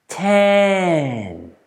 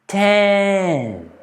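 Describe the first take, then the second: No difference in how they are said.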